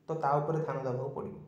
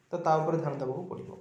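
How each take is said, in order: Both takes have the same delivery.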